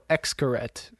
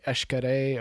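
First: The name is said in an anglicized way. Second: The name is said closer to the local way. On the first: This is how English-speaking tourists say it. The speaker calls it wrong. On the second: This is closer to how the name is really said. The speaker calls it right. "the actual pronunciation is something similar to"

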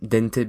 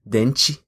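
First: The final t is a plain hard t. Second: The final t sounds soft, like 'ch'. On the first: This is the European Portuguese pronunciation. "those are pronounced very, very as you would do in Spanish" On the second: This is the Brazilian Portuguese pronunciation. "When you go to Brazil, you get this kind of interesting twist on that"

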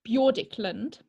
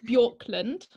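First: The surname has an extra middle syllable. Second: The surname has just two syllables. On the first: The speaker calls it wrong. "I pronounced it wrong" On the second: The speaker calls it right. "let me try again"

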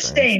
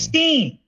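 First: The last syllable sounds like 'stine'. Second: The last syllable sounds like 'steen'. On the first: The speaker calls it wrong. "It was never like Stein" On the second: The speaker calls it right. "It was Steen"

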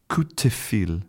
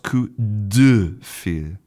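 First: The middle consonant is devoiced, like a t. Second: The middle consonant is voiced, a clear d. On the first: This is the easier, less effortful way people say it. "when a lot of French people are saying this phrase, they will say" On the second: This is the fully voiced form that takes more effort.

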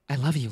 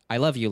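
First: The line sounds warm and heartfelt. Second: The line sounds flat and almost sarcastic. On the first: The speaker calls it right. "and then Femme Shep is like" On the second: The speaker calls it wrong. "So Male Shepard is like"

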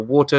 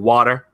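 First: It is said in a British accent. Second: It is said in an American accent.

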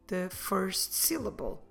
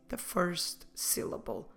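Both takes have the same delivery.

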